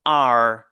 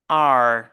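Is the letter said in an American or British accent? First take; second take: American; American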